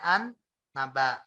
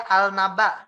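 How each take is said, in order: First: "an naba" with a long held N; lam lebur berdengung. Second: "al naba" with the L sounded; al dibaca jelas. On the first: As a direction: hum on the N of "an naba". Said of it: "tapi kita bacanya an naba". ("an naba" dengan nun ditahan mendengung) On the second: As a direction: keep a clear L in "al naba". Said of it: "tadinya dia al naba". ("al naba" dengan lam dibaca jelas) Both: Shown as a demonstration.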